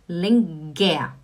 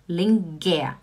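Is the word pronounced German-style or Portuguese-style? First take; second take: Portuguese-style; Portuguese-style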